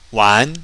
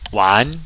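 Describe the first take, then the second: No difference in how they are said.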